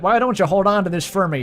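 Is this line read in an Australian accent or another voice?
another voice. It is read in a non-Australian character voice. "That's Asriel's voice now"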